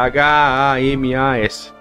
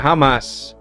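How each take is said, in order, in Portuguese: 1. Cada letra é dita uma de cada vez. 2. É lido em voz alta como uma palavra única. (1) "Se fosse a sigla somente, seria" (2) "é uma sigla que você lê completo"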